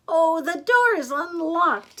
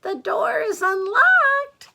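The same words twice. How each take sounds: First: High, loud, slow granny; raised, drawn-out storybook old lady; Granny's voice. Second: Very high, loud fake-granny falsetto; exaggerated, drawn-out high call; wolf posing as Granny. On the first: Acted. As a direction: call out to the visitor as Granny. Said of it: "said Granny". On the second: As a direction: call sweetly and slowly in a put-on old lady voice. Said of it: "said the wolf".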